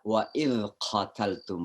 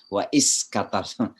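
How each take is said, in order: First: The consonant in 'idh' sounds like a 'z'. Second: The consonant in 'idh' sounds like an 's'. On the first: The speaker calls it right. "Yang pertama za" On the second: The speaker calls it wrong. "kita orang yang Bugis Makassar biasanya semuanya sa"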